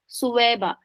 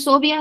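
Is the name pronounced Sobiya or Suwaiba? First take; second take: Suwaiba; Sobiya. First: The name is said as Su-wai-ba. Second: The name is said as So-bi-ya. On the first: The speaker calls it right. "असल में नाम क्या है? सुवैबा" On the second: The speaker calls it wrong. "ये wrong हम pronounce करते हैं"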